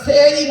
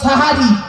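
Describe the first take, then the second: First: The first vowel is an e sound. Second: The first vowel is an a sound. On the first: Magic. The speaker calls it wrong. "ওটা সেহেরি নয়" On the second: The meal eaten at the end of the night. The speaker calls it right. "শব্দটা সাহারি"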